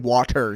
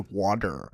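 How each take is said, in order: First: The middle consonant is a crisp T sound. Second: The middle consonant sounds like a D. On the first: "we don't say water" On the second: "we use a D as a T"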